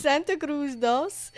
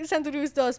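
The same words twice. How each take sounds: First: Slow, careful Spanish-accented Santa Cruz dos. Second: A quick Spanish twist on Santa Cruz; Spanish accent. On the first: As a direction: lean into the Spanish sounds, slowly. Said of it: "but Spanish accent". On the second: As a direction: say dos with a light Spanish accent. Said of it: "I said it in a Spanish accent instead". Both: Shown as a demonstration.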